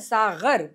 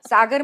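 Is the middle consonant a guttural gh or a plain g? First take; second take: guttural; plain. First: The middle consonant is a guttural gh. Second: The middle consonant is a plain hard g. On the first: It means a wine cup. "सागर म्हणजे जाम" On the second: It means the sea. "सागर म्हणजे समुद्र"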